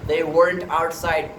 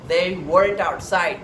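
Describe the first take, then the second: No difference in how they are said.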